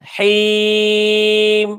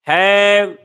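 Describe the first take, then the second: First: The vowel is a close 'ee' sound. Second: The vowel is an open 'a' sound. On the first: The speaker calls it right. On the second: The speaker calls it wrong.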